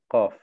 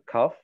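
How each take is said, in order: First: The first sound leans toward a G sound. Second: The first sound leans toward a K sound. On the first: The speaker calls it right. "dass du den Kauf mehr zum G aussprichst" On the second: The speaker calls it wrong. "Also nicht zum K"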